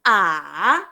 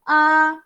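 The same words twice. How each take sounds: First: The pitch dips down, then rises again. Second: The pitch stays level and steady. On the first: "berdengung. Turun. Naik" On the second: "Yang pertama senada daripada mulut keluar"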